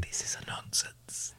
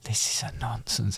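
First: Slow whispered catchphrase; whispering. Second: Softer whispered catchphrase; whispering. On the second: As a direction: echo it in a hush. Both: Pretend. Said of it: "Why are you whispering it?".

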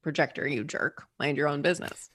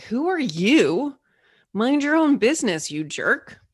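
First: A softer, grumbling put-down; muttered jab. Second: Snapping back, louder and higher; an irritated squirrel telling off a stranger; annoyed squirrel. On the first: Retold or imitated. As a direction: grumble it under your breath like an old grudge. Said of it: "we end up saying". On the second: Pretend. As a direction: squirrel snapping at the bird who called down to it, annoyed. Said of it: "is like".

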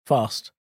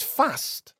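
First: Long "ah" vowel in "Fast"; southern "Fast". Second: Short a in "fast", pitched higher; northern "fast". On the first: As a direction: say "Fast" properly southern, as "fahst". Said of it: "I speak properly". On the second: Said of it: "There's no R in it". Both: Shown as a demonstration.

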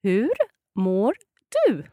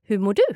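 First: Hur mår du with a pause after Hur; slow and clear. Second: Hur mår du run together fast; quick natural Swedish. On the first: Teacher says it slowly for the learner, clearly. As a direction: lay it out slowly, word by word. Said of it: "let's hear it slowly". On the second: Teacher says it fast to the learner, quick native pace. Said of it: "that was quite quick". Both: Shown as a demonstration.

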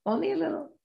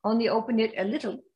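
First: High, soft and coy; tease, hold it back playfully. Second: Said in the usual way. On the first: Shown as a demonstration. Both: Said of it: "Keep the kimono closed".

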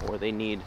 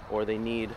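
The two takes are said the same way.

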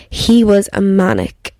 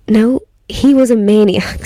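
First: "manic" said as MAN-ik instead of maniac; "manic" with two short syllables, MAN-ik; wrong word manic. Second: "maniac" said in full, MAY-nee-ak; "maniac" with three syllables, stress on MAY; corrected to maniac. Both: Real, not acted. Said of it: "Wrong use of the word".

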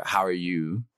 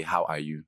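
First: "How are you" in a Canadian accent, words run together. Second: "How are you" in a Nigerian accent, each word sounded. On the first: Showing interviewer a Canadian "How are you", Canadian accent. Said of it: "it would be a Canadian way of saying". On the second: Showing interviewer a Nigerian "How are you", Nigerian accent. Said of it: "but in Nigeria, say". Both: Shown as a demonstration.

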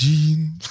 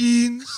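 First: Mock-gloomy Danish "jeans"; gloomier Danish. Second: "jeans" sung upward in Norwegian. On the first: Comparing countries' words for jeans, mock-gloomy Danish. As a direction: say "jeans" as a dreary Danish minor note. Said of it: "Det är lite dystrare bara". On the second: Comparing countries' words for jeans, imitated Norwegian lilt. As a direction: mimic a rising Norwegian "jeans". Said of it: "på Norge heter det". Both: Shown as a demonstration.

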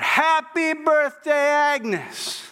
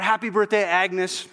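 First: High, drawn-out surprise-party yell; slow, high-pitched shouted greeting. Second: Said in the usual way. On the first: Acted. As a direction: stretch it into a crowd's celebratory holler. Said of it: "everybody yells out".

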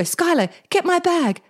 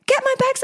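First: Mildly urgent call to her daughter. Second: Much higher, pleading repeat; urgent higher plea. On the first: Hurt mum calls daughter for her bag, a touch urgent. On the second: Hurt mum repeats her plea to her daughter, much higher and urgent. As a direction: push it up high like she means it now. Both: Retold or imitated. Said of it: "I go".

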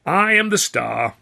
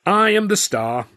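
First: High, loud, slow sneering imitation; mocking Chaplin. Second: High, loud and slow, every word planted; grandly proud Chaplin. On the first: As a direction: ape his grand claim. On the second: A narrator's reading. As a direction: announce yourself as the star. Charlie's proud claim.

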